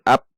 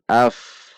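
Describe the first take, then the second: First: It ends with a p sound made by lips. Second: It ends with an f sound, not held. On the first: The speaker calls it wrong. "Bukan ap" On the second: The speaker calls it right. "Tidak tertahan"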